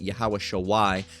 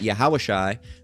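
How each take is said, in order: First: The second word has two syllables, sha-wai. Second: The second word has one syllable, shai. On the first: The speaker calls it wrong. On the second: The speaker calls it right.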